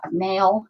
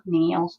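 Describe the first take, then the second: First: Said in the usual way. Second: NAIL with a northern vowel, like "neel"; northern accent. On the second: Shown as a demonstration. Crafter catching her own slip on nail, northern accent. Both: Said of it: "northern accent coming out".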